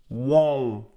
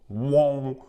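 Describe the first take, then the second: Both takes have the same delivery.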